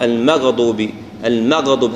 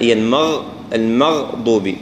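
First: "المغضوب" with a bouncing release after gh; qalqala on ghayn. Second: "المغضوب" slow, gh held without a bounce; no qalqala. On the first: Teacher showing the echo mistake, gh bounced. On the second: Teacher correcting the echo, steady held gh. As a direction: flow from gh straight into the next consonant of "المغضوب". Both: Shown as a demonstration. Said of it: "هالقلقلة لا".

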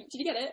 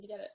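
First: "get" slightly lifted in "Did you get it?"; stress on get. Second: "you" lifted in "Did you get it?"; stress on you. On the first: Real, not acted. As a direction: lean a little on "get", the rest even. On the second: Retold or imitated. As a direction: put the weight on "you", drop "get it". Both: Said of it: "No, I was asking".

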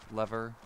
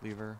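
First: Lever said as LEV-er; short-e pronunciation. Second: Lever said as LEE-ver; long-e pronunciation. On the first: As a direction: say Lever with a short e, rhyming with never. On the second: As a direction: say lever with a long ee, rhyming with beaver. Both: Shown as a demonstration. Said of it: "however you pronounce it".

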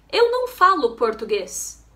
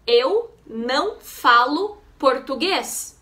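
First: Said in the usual way. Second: Teacher's slow model, pausing between words; slowly, with clear gaps between words. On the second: Shown as a demonstration. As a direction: say each Portuguese word separately for learners. Teacher models phrase slowly word by word.

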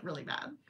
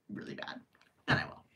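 First: Said in the usual way. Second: Whispered really bad, almost silent. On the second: Real, not acted. Stressing how bad, in a whisper. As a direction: drop it to a hush.

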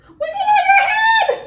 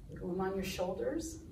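First: Very high, loud, quick squeal. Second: Soft, low, quick delivery; low and quiet. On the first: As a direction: squeal it way up top. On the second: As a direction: drop the voice right down. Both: Shown as a demonstration. Action song, contrasting body heights.

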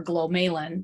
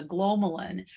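First: Glomalin with a long stressed middle syllable; alternative pronunciation. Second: Glomalin with the first syllable stressed; first pronunciation variant. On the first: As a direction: say glomalin as glo-MAY-lin. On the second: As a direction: say glomalin as GLO-muh-lin. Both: Shown as a demonstration. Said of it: "depending on how you prefer to pronounce it".

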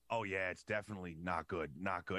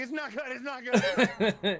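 First: Said in the usual way. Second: Slow, high and loud, laughing in panic; panicked repeat. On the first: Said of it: "And he goes". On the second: Retold or imitated. Patient repeating the doctor's bad news, high laughing panic. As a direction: echo the doctor's words in horrified disbelief. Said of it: "And I was like".

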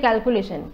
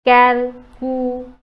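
First: Said in the usual way. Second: calculation in four slow pieces, first one loud; syllable by syllable. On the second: Shown as a demonstration. Teacher counting syllables, calculation said slowly piece by piece. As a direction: break calculation apart with long gaps between syllables. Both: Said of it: "এইটো চাৰিটা শ্লেপ".

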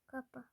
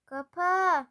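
First: Said in the usual way. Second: Loud, higher, drawn-out command; exasperated shout. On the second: Real, not acted. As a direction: yell it at the stubborn suitcase. Same command, suitcase will not close.

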